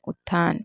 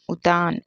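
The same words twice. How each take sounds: First: उत्थान said with an aspirated tth; "ut-thaan" for उत्थान; correct pronunciation. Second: उतान said with a plain t; no breath on the t in उतान; "u-taan" for उतान; wrong pronunciation. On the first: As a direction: hold the t, then breathe it out in उत्थान. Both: Shown as a demonstration. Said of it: "होता ही नहीं है".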